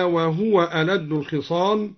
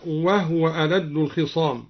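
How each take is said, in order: First: Said in the usual way. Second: وهو said "wahwa", no vowel on the ha; silent ha in وهو. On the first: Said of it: "أسكن الهاء". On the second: Shown as a demonstration. Teacher showing al-Duri's reading, وهو as "wahwa". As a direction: close the ha of وهو into the waw. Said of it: "أسكن الهاء هكذا".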